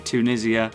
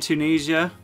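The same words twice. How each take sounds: First: The word is said with a British pronunciation. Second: The word is said with an American pronunciation. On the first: The speaker calls it right. "I meant to say Tunisia as a Brit" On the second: The speaker calls it wrong. "Sorry if I did the American pronunciation"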